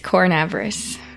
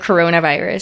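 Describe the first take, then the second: First: One syllable is dropped, squeezing the word together. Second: Every syllable of the word is said in full. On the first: "it's cornavirus. That's how Jaws pronounces it" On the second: "Instead of coronavirus"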